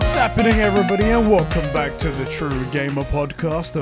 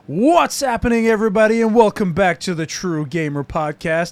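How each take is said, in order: First: It is said in his own non-American accent. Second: It is said in an attempted American accent.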